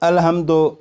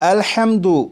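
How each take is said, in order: First: The word ends in an 'o' vowel. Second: The word ends in an 'u' vowel. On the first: The speaker calls it wrong. "इसे क्या पढ़ते हैं बाज़ लोग" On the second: The speaker calls it right. "दो दो दो नहीं पढ़ेंगे बल्कि"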